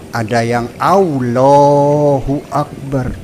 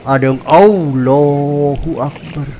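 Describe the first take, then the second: Both takes have the same delivery.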